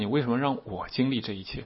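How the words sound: The stress falls on the word 我. The focus is on one's own suffering. The speaker calls it wrong.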